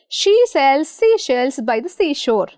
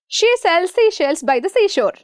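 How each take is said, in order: First: The sentence is spoken a bit faster. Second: The sentence is spoken very fast. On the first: "speed up a bit" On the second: "Shall we rush?"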